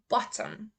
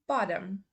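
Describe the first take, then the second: First: It is said in a British accent. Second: It is said in an American accent. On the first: "first say the U K pronunciation" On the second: "then I will say the U S"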